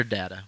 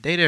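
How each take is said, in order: First: "data" with a short first vowel, like dat. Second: "data" with a long A, as in day. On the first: Co-host offering the other pronunciation, short-A data. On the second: Co-host asking which pronunciation to use, long-A data. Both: Shown as a demonstration. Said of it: "Is it data or data?".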